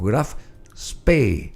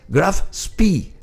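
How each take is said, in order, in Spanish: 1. «Graf Spee» se pronuncia a la manera alemana. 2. «Graf Spee» se pronuncia a la manera inglesa. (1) "pero Graf Spee, con dos E en alemán" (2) "se dice en inglés"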